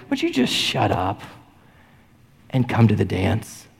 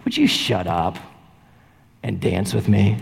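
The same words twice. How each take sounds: First: Tenderest. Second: Put-on lower, coy voice of a girl in a music video; lightly voiced girl inviting a shy boy to dance; girl asking. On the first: Retold or imitated. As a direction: invite them as tenderly as Jesus would. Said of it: "in the tenderest, only the way Jesus can say". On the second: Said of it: "and she just goes".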